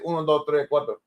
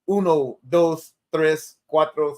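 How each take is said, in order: First: It is said in a Caribbean Spanish accent. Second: It is said in a standard Spanish accent. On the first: "I'm gonna say" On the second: "I correctly know you're supposed to say"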